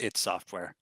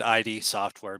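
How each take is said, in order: First: The name is said as one short word. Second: The name is spelled out as two letters. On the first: The speaker calls it right. "it was pronounced id Software" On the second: The speaker calls it wrong. "how all of us probably first said"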